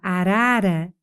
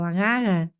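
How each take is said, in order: First: The r sounds are pronounced clearly and normally. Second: The r sounds are distorted, as with tongue-tie. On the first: This is the target pronunciation. The speaker calls it right. "eu não consigo falar arara" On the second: The speaker has a tongue-tie limitation. The speaker calls it wrong. "se eu tenho a língua presa ... eu falo arara"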